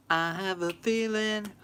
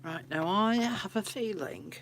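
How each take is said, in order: First: "feeling" leaned on, louder and slow; stress on feeling. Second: Said in the usual way. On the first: Real, not acted. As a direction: draw out "feeling" knowingly. Repeats it with weight.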